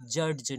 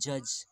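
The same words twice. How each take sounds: First: A d sound is heard before the end. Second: No d sound is heard before the end. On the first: The speaker calls it wrong. "जज नहीं पढ़ते हैं" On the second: The speaker calls it right. "ड की आवाज या डी की आवाज आती ही नहीं है"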